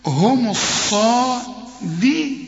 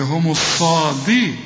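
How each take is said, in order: First: هم الصادي- drawled, higher and slow; mock the mistake in هم الصادي-; wrong stretched reading. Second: هم الصادي- with the word cut off; the cut-off reading of الصادي-; wrong reading. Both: Shown as a demonstration. Teacher mimics a student's wrong reading. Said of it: "اوعى تقول لي".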